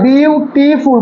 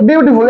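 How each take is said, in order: First: beautiful broken slowly into three beats, বিউ-টি-ফুল; syllable by syllable. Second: Said in the usual way. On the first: Shown as a demonstration. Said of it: "তিনবারে যাচ্ছে". (Beautiful তিন ভাগে ভেঙে, ধীরে ধীরে উচ্চারণ) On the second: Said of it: "এটা দেখ কতবারে?".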